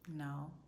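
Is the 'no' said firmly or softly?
softly. The word is said gently and softly. The speaker calls it right. "you can still be soft about it"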